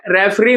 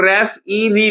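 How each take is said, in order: First: Said in the usual way. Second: रेफ ई री as three separate pieces; syllable by syllable. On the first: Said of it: "इसे हम लोग". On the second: Shown as a demonstration. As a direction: break it into रेफ, ई, री. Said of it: "इसे हम लोग रेफ ई री लिखते हैं".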